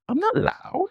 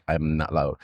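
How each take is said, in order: First: Much higher, softer mocking squeak; high-pitched mocking imitation of her denial. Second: Quietly sunk imitation of her rebuttal; mimicked low denial. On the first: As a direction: mimic her small high protest. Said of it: "Like that". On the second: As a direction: lower and much softer, sinking voice. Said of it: "your vocal went all the way down".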